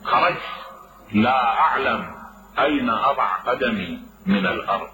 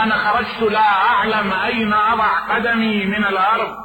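First: "خرجت" set apart, pause, then "لا أعلم", pause, then "أين أضع قدمي من الأرض"; slow, pointed phrasing. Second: The whole line lifted high, "لا" punched; stress on the key words. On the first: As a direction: break the line into three pieces with pauses. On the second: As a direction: raise the voice and hit "لا" hard in "أنا خرجت لا أعلم". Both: Shown as a demonstration. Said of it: "فموضع الشاهد".

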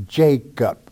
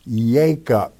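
First: "Jacob" with a J at the start, JAY-kup; English J sound. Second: "Jacob" opening on a Y glide; Hebrew pronunciation. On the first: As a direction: slowly show the J in "Jacob". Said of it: "there's no J's in the Hebrew tongue". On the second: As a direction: repeat "Jacob" as YAY-kup, with no J. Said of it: "a class that understood Hebrew only". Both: Shown as a demonstration.

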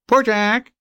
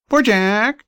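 First: High, plaintive bird voice; magpie crying. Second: High, plaintive bird voice repeated; magpie crying again. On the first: Magpie pretending to be sleepy and sorry for himself. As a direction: whine it like a pitiful talking bird. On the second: Magpie still pretending to be sleepy and pitiful. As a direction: keep whining like a pitiful talking bird. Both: Acted. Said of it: "and crying".

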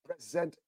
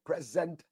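Both takes have the same delivery.

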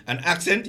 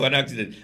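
First: Said in the usual way. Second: "accident" in three syllables, in place of accent; slip for accent. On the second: Shown as a demonstration. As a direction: say "accident" with an extra middle syllable.

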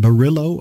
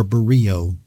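First: Barillo said with an L sound; pronunciation with L. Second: Barrio said with no L sound; pronunciation without L. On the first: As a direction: say the double L in Barillo as an English L. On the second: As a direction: say Barrio as "buh-REE-oh". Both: Shown as a demonstration. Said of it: "which way that you pronounce it".

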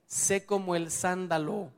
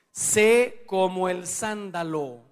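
First: Said in the usual way. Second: "Sé como el sándalo" said slowly and louder, each word weighted; slow emphatic quote. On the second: Shown as a demonstration. Preacher proclaiming the proverb, slow and loud.

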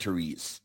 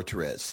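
First: "Therese" said as tuh-REEZ; preferred pronunciation. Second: "Therese" said as tuh-REZ; alternative pronunciation. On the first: Host giving listeners his own way, "Therese" as tuh-REEZ. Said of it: "I pronounce it Therese". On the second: Host offering listeners the other option, "Therese" as tuh-REZ. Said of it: "Depends how you want". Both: Shown as a demonstration.

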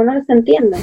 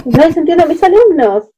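First: Said in the usual way. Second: Higher, lightly voiced frustrated husband; a light mock of his helpless complaint; imitating husband. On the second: Wife imitating husband on phone, a touch of frustration. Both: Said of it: "me dijo".

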